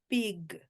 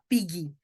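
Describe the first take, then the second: First: The word ends cleanly on the g sound. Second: An extra vowel sound follows the final g. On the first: The speaker calls it right. "é pig" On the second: The speaker calls it wrong. "não vou falar pig"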